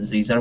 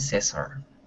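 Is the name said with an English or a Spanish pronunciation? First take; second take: English; Spanish. First: The name is said with an English pronunciation. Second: The name is said with a Spanish pronunciation. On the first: This suits an English class better. "as we are in an English class, then Caesar would be much more appropriate" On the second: This is how people in Peru say it. "they call me Cesar"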